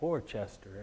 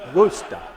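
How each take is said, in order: First: The name is pronounced just as it is spelled. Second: The name is pronounced the local New England way. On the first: The speaker calls it wrong. "the name looks like Worcester, and that's what I always said" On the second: The speaker calls it right. "this gal that was actually from the New England area said, you don't say Worcester, it's Worcester"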